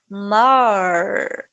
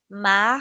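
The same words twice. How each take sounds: First: The final R sounds like an English R. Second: The final R is a throaty sound. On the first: "que é um R mais parecido com o inglês" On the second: "É um som da garganta"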